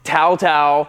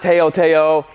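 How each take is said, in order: First: Each syllable sounds like 'tao' with t. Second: Each syllable sounds like 'tee-oh'. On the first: The speaker calls it right. "it's Tao Tao" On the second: The speaker calls it wrong. "It's not Teo Teo"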